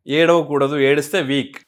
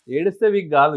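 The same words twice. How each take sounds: First: ఏడవకూడదు, ఏడిస్తే week as a stern, dismissive saying; mock common belief. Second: Said in the usual way. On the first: Shown as a demonstration. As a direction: parrot the old belief that ఏడిస్తే week with firm disapproval.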